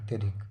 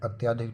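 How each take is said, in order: First: The vowel after 'ty' is a short 'a'. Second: The vowel after 'ty' is a long 'aa'. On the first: The speaker calls it right. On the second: The speaker calls it wrong.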